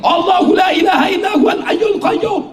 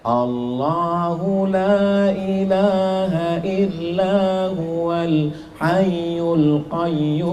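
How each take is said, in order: First: It is recited loudly and forcefully. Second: It is recited softly and weakly.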